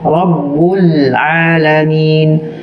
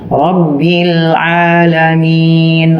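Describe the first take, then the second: First: The b is followed by a u vowel. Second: The b is followed by an i vowel. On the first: The speaker calls it wrong. "Kita baca ba-nya berharokat kasroh atau dhammah" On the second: The speaker calls it right. "Aslinya begitu, tulisannya kasroh"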